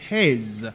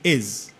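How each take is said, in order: First: The word starts with a clear h sound. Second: The word starts with no h sound. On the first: This is the careful pronunciation of the word. "Ou dit his, ou pas dit is, pour prononciation" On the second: This is how it comes out in everyday speech. "Mais lorsqu'on parle, ou dit is"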